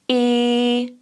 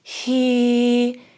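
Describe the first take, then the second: First: The vowel starts with a small glottal pop. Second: The vowel starts with audible breath before it. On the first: "you'll hear almost a little pop at the beginning" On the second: "you'll hear a little bit of a breathier sound at the start"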